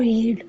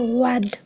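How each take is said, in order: First: The vowel is a long 'ee' sound. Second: The vowel is a short 'eh' sound. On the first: The action happens in the present. "Present tense में आए ई ए से ई sound pronounce की जाती है" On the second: The action happened in the past. "Past tense में आए"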